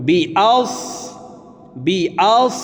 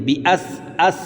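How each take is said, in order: First: আস with a thick, rounded, emphatic s; heavy sad. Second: আস with a thin, light s like sin; wrong thin sad. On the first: Teacher models correct sad in আস, thick emphatic articulation. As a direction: say বি আস full-mouthed, darkening the vowel before s. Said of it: "দেখুন মোটাভাবে পড়ব". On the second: Teacher shows a common mistake, আস pronounced as sin. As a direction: say বি আস with a light front vowel and plain s. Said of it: "صاد-এর উচ্চারণ সিনের উচ্চারণ করে থাকি". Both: Shown as a demonstration.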